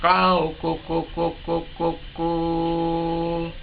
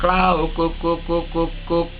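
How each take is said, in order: First: The final note is long and drawn out. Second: The final note is cut short. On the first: The bird's call has a good, full ending. The speaker calls it right. "yang ujungnya panjang glosor, yang meleleh" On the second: The bird's call has a weak, short ending. The speaker calls it wrong. "Nudel istilahnya cuma pendek"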